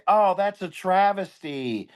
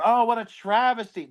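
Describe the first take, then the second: First: Slow, higher mock-sorrowful oh; mocking online poster. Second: Mocking misuse. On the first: Mocking people online who misuse a word, slow mock lament. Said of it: "they say". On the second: Parodying someone calling a house fire a travesty, mock lament. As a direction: ham up the wrong use of travesty. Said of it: "like a house burns down".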